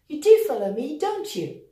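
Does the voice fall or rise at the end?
fall. The voice falls at the end of the tag. The speaker is sure the listener follows. "here I'm going to use the falling intonation and say"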